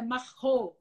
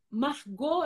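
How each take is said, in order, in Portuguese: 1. O G é um som gutural, parecido com o R. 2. O G é pronunciado como um G forte.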